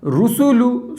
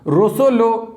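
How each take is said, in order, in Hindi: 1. स्वर शुद्ध, गोलाकार 'u' ध्वनियाँ हैं। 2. स्वर 'o' की ध्वनि में नीचे आ जाते हैं। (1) "इस तरीके से हमें मजहूल नहीं पढ़ना है, मारूफ पढ़ना है।" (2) "रुसुलू नहीं पढ़ रहे हैं, रोसोलो। कितना बेकार लग रहा है मजहूल है।"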